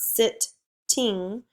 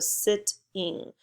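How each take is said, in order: First: The t sound is said twice, splitting the word. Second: The t sound is said once, joining the word. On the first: The speaker calls it wrong. "it's not sit-ting" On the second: The speaker calls it right. "we don't do the t, -t two times, we just go sitting"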